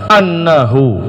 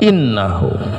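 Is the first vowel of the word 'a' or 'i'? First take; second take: a; i. First: The hamza is read with an 'a' vowel. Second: The hamza is read with an 'i' vowel. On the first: "hamzahnya boleh di fathah" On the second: "boleh dikasrah"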